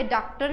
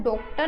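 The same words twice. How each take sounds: First: Daaktar, first vowel opened towards aa; open vowel in डॉक्टर. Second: Doktar, o in the first syllable; o vowel in डॉक्टर. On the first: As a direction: say डॉक्टर with the in-between aw. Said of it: "ओ और औ के बीच की sound". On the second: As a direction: say डॉक्टर wrongly with a full o. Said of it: "ना तो हम ओ लगाते हैं". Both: Shown as a demonstration.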